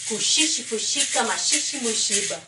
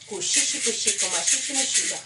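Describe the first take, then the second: Both takes have the same delivery.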